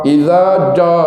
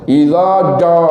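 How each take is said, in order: Both takes have the same delivery.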